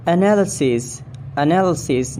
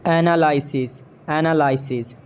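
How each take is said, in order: First: "Analysis" as uh-NAL-uh-sis; British pronunciation. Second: "Analysis" as AN-uh-LIE-sis; long I in "Analysis"; mispronounced analysis. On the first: Shown as a demonstration. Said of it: "it's analysis". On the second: Acted. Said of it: "not analysis".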